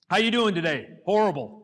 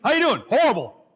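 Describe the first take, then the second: First: Gloomy answer. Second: Louder, higher, fully committed horrible; mean it when you say horrible; an earnest, emphatic horrible; sincere with conviction. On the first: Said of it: "You can go negative words". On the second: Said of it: "say it sincere with conviction". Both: Shown as a demonstration.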